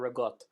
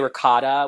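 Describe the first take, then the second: First: The final vowel is dropped. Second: The final vowel is pronounced fully. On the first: "we say ricotta or rigot" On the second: "when people say ricotta"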